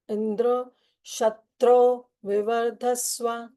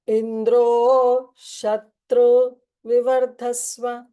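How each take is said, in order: First: The raised pitch falls on Shatru, not Indra. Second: The raised pitch falls on Indra, not Shatru. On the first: Let the slayer of Indra grow. The speaker calls it right. "Indra is Anudata and Shatru is Udata" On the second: Let one who will be slain by Indra grow. The speaker calls it wrong. "he recited Indra as Udata"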